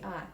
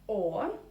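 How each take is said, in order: First: The vowel is an open, unrounded 'a' sound. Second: The vowel is a full, rounded 'o' sound. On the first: "but you say "а"" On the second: "it is written "о""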